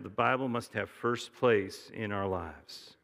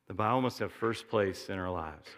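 First: Slow and deliberate, word by word; slow dictation. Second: Said in the usual way. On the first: Shown as a demonstration. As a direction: spell it out so they can write it down. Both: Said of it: "Here's something you write down".

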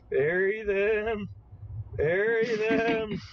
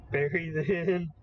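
First: Insistent build. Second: Said in the usual way. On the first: Acted. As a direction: hammer each "Bury them" harder. Repeating an order, building up.

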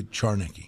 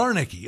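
First: Charnicki opening with a CH sound; CH pronunciation. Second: Zarnicki opening with a Z sound; silent C pronunciation. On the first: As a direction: say Charnicki starting like "char". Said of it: "I'll say Charnicki". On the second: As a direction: say Zarnicki starting like "zar". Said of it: "one of them silent". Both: Shown as a demonstration.

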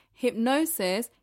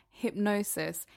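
First: "Hypnosis" repeated with more weight; "Hypnosis" said again as the answer, stressed; emphatic repeat. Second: Said in the usual way. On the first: Shown as a demonstration. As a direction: lean into "Hypnosis" the second time, falling firmly at the end. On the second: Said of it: "I'm gonna ask you a question before I tell you".

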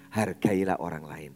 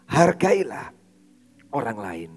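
First: Said in the usual way. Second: Emphatic exhortation. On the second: Real, not acted. Preacher urges the congregation to respect others, loud and emphatic. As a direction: drive the command home. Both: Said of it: "Karena itu".

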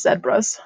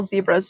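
First: Zebras said as "zed-bras"; mistaken pronunciation. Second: Said in the usual way. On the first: Retold or imitated. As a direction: open zebras with "zed" in place of "zee". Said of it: "we must call zebras zebras". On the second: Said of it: "that we must call zebras zebras".

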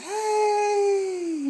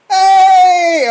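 First: Fake cheerful greeting. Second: Loud greeting. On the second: Retold or imitated. Shouting back a greeting.

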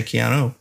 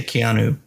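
First: Keanu, rhyming its end with "go". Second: Keanu, rhyming its end with "who". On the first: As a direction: finish Keanu on an "oh" sound. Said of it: "sometimes I probably say Keanu". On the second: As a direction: finish Keanu on an "oo" sound. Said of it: "I say Keanu". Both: Shown as a demonstration.

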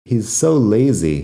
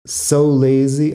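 First: Said in the usual way. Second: "So" stretched, higher and louder, slow; emphasis on so. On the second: Shown as a demonstration. Teacher showing learners how "So" adds emphasis, slow and stressed. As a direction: lean hard on "So" to show emphasis. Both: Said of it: "ahí utilizo so para dar énfasis".

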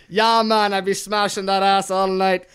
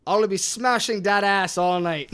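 First: Loud, badly faked Jamaican accent. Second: Unintended Irish lilt on an attempted accent; accidental Irish accent. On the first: Friend redoes the card after being told it sounded Jamaican, bad Jamaican accent. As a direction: ham up a clumsy Jamaican accent. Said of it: "That was a bad Jamaican accent". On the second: Friend reads a dirty card to friends, Irish-sounding accent. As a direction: put on an accent that slips into Irish. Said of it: "I don't know why that was Irish".

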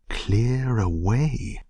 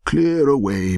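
First: "Clear away?" drawn out slowly with rising tune; rhetorical echo question. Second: Loud, high, jovial command; cried out. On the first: Narrator echoing the master's order, slow rising "Clear away?". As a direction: stretch "Clear away?" upward, as if amused at asking. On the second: Old master ordering apprentices to make room, hearty shout. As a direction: holler the order to the lads. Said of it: "cried old Fezziwig". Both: A narrator's reading.

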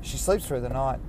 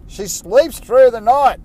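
First: Said in the usual way. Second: Slower, higher and louder, leaning on through; proudly stressing she sleeps through the night; emphatic boast. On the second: Real, not acted. Dad proudly boasting to listeners about his baby, louder.

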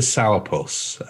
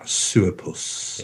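First: Said in the usual way. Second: "Sourpuss" with a long oo, as "soor-puss"; Scots pronunciation. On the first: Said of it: "I can't say it quite as well". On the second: Shown as a demonstration. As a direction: attempt the Scots "Sourpuss", first vowel oo. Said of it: "I can't say it quite as well as that".

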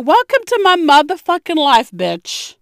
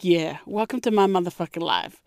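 First: Loud, high gloating welcome; mock triumphant. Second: Softer, lower, knowing welcome; quiet knowing. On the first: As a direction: rub it in, loud and gleeful. Mocking pregnant friend who struggles. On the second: Retold or imitated. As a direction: say it low, like a shared secret. Knowing look to friend.

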